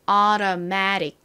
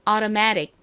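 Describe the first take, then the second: First: The word is said slowly. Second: The word is said at normal speed.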